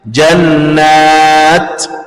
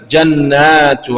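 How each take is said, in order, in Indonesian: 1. Kata itu berakhir dengan bunyi t mati. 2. Kata itu berakhir dengan vokal u pendek. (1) "kalau kita mau berhenti ... dibacanya jannat" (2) "kalau kita nyambung bacanya biasa jannatu"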